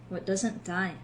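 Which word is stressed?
die. The stress is on "die".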